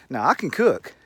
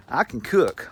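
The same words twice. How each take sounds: First: Said in the usual way. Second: "I" said high and pointed, then "can cook" falls; stressed "I" in "I can cook," with a falling end. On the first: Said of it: "She made sure she told me". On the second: Retold or imitated. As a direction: lean hard on "I" like a warning. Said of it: "She made sure she told me specifically".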